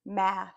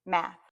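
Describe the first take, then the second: First: "Math" drawn out, sound into sound; blended slowly. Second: Said in the usual way. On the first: Shown as a demonstration. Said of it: "blend every phoneme".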